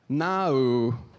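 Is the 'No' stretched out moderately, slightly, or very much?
moderately. A more British 'No' with more syllables.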